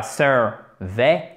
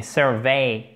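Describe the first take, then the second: First: SURVEY with a plain short «è» ending, no glide; sans diphtongue. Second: SURVEY with a gliding «vey» ending; avec diphtongue. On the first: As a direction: say SURVEY as two cut syllables, «sœr-vè». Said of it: "il faut bien vous méfier parce que c'est une diphtongue". («survey» sans diphtongue, finale en «vè») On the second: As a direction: stretch the end of SURVEY into «vèï», falling. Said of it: "c'est une diphtongue". («survey» avec diphtongue finale «vèï») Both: Shown as a demonstration.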